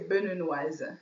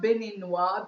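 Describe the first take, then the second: First: The word ends with a final z sound. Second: The word ends without a final z sound. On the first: The speaker calls it right. "you say Beninoise" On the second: The speaker calls it wrong. "it's not Beninois because you have like a e at the end"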